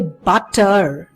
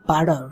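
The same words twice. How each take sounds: First: The middle consonant is a clear t sound. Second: The middle consonant is a soft d sound. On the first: "They don't say butter" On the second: "They say butter ... ये आपका ड बन रहा है।"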